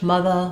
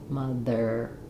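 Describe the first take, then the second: First: The ending is a plain uh with no R. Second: The ending is a tight er with R. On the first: "In British English, ... they have an uh sound for the er" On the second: "use that R in red to help you put the R on mother"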